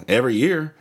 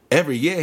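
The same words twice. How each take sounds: First: Said in the usual way. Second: Higher, incredulous mock Australian; Australian accent. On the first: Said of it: "I was like". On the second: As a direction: question it like an imitated Australian. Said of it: "One of those dudes from Australia".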